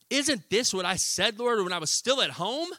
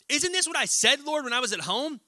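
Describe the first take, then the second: First: It is read in a calm tone. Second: It is read in an angry tone.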